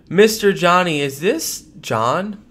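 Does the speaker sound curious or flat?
flat. It sounds flat, without curiosity.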